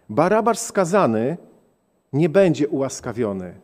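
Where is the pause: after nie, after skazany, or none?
after skazany. There is a pause after skazany. "A teraz postawmy przecinek. ... co oznacza śmierć"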